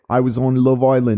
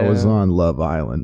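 First: It is said in a put-on British accent. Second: It is said in the speaker's own accent.

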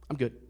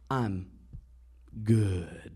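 First: The word 'good' is short and flat. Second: The word 'good' is drawn out, with enthusiasm.

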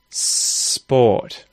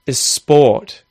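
First: The word starts directly with the s sound. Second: An extra vowel sound comes before the s. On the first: The speaker calls it right. "just sport" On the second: The speaker calls it wrong. "saying sport instead of just sport"

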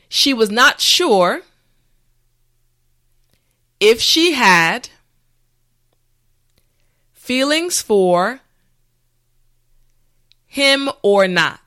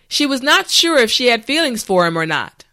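First: The sentence is spoken slowly and carefully. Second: The sentence is spoken at a natural speed. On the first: "this time repeat after me" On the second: "the last time at a regular pace"

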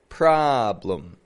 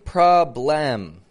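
First: The second syllable has a reduced schwa vowel. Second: The second syllable has a full, clear vowel. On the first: The speaker calls it right. "And there it is right there" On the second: The speaker calls it wrong. "Notice, I'm not saying problem"

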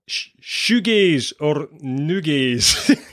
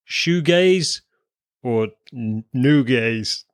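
First: It is said in a Scottish accent. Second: It is said in the speaker's usual accent.

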